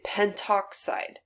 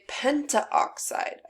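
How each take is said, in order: First: No a vowel is said before oxide. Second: An a vowel is said before oxide. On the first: The speaker calls it right. "I say pentoxide" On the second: The speaker calls it wrong. "I don't say pentaoxide"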